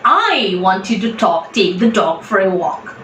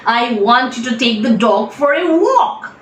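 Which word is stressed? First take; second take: I; walk. First: The stress is on the word I. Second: The stress is on the word walk.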